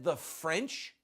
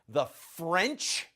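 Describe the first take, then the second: First: It is said in a plain, neutral tone. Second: It is said in a scornful, contemptuous tone.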